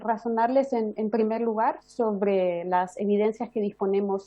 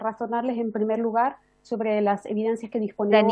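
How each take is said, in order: First: It is said more slowly. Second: It is said fast.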